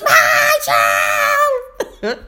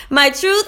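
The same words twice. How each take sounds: First: High, stretched mock holler; mimicked kid shouting back a mantra; imitating yelling student. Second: Said in the usual way. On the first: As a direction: drag out the yell like an overexcited pupil. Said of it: "walking around the room yelling". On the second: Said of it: "I'll just start saying".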